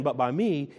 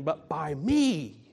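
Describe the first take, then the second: First: Said in the usual way. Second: Slow, drawn-out stress on "me"; But by ME, with "me" stretched out and hit hard; emphatic ME. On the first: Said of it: "He's not just saying". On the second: Shown as a demonstration. Preacher showing the congregation the Greek emphasis, emphatic "me". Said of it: "he's saying".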